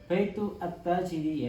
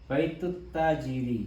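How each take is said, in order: First: The article is pronounced separately, words kept apart. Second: The words merge with a doubled t sound. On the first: The speaker calls it wrong. "bukan baitu at-tajiri, ya nggak boleh ya" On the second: The speaker calls it right. "digabungkan menjadi melebur ya, baitut tajiri ya, harakat tasdid"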